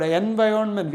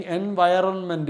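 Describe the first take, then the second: First: "environment" with the R left out; silent R. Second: "environment" with the R pronounced; as written. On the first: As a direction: say "environment" as "envi-onment". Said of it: "R is silent". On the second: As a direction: say "environment" with every letter, R included. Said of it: "we are writing environment". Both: Shown as a demonstration.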